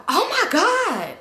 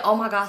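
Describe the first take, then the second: First: High, loud, drawn-out OH MY GOD; loud shocked exclamation. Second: Said in the usual way. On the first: Retold or imitated. Friend walks up and catches them kissing, loud shock. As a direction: blurt it out in exaggerated shock. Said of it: "so loud". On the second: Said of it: "She said".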